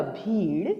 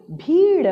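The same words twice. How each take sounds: First: Said in the usual way. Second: भीड़ split into भी and ड़, higher and louder; syllable by syllable. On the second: Shown as a demonstration. Teacher reading the paragraph word भीड़, syllable by syllable. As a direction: sound out भीड़ in two pieces. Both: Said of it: "अब इसे पढ़ते हैं".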